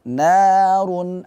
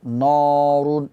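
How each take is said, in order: First: The first syllable is thin, sounding like na. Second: The first syllable is thick, sounding like nor. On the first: The speaker calls it right. "Na dibaca tipis" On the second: The speaker calls it wrong. "Na, jangan dibaca tebal. Nor, ... Norun, enggak"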